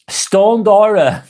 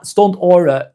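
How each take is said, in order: First: "Stone Dora" slow, split after Stone: Stone + Dora; read as Stone Dora. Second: "Stoned Aura" with a hard d on Stoned, then Aura; read as Stoned Aura. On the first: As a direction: say "Stone Dora" as two names, Stone then Dora, slowly. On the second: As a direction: say "Stoned Aura", stressing Stoned and its final d. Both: Shown as a demonstration. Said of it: "Stoned, Stoned Aura".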